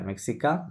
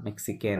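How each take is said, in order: First: মেক্সিকা ending in an open nasal "kaa", no N; মেক্সিকা with the final N silent; masculine nasal ending. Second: মেক্সিকেন ending in "ken", N sounded; মেক্সিকেন, lower and softer, ending "-ken"; feminine -aine ending. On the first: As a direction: say মেক্সিকা rising on the last vowel. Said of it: "আর এখানে কি". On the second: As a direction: say মেক্সিকেন softly with a closed final N. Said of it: "মেক্সিকেন হবে". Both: Shown as a demonstration.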